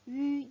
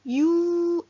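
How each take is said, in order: First: It is said as a rounded vowel, no glide. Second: It is said like 'you' with a glide. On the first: The speaker calls it right. "얘 원래 소리였던 으라고 내주셔야 돼요" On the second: The speaker calls it wrong. "유 아니고요"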